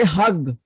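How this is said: It is said Egyptian-style with a hard 'g' sound.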